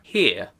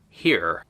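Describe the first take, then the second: First: The final r sound is silent. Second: The final r sound is pronounced.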